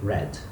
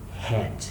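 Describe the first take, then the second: First: The word starts with an English R sound. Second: The word starts with a breathy H sound. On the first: The speaker calls it right. "which should be red" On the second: The speaker calls it wrong. "they tend to say the color head"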